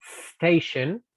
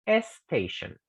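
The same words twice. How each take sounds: First: "station" starting straight on s, no vowel before; correct English s. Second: "station" said as "estation" with an added e; Spanish-speaker error. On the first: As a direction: say "station" with no e at the front. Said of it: "en vez de decir". ("station" sin vocal inicial) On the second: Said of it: "Y ese es un error". ("station" con la e agregada, como error) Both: Shown as a demonstration.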